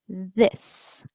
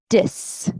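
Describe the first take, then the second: First: It begins with a soft th sound. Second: It begins with a hard d sound. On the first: "the T H sound or the th sound" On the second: "the D sound"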